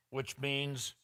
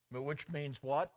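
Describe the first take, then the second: First: Said in the usual way. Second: "which means what?" with "what" rising into a question; questioning rise on "what". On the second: Shown as a demonstration. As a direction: prompt the congregation, lifting "what".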